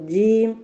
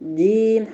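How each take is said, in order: No difference in how they are said.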